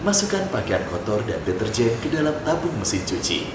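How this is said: The reading sounds smooth, low and smiling. The instructions sound pleasant to listen to. The speaker calls it right. "saya pakai tone yang bawah, tapi pakai smiley voice"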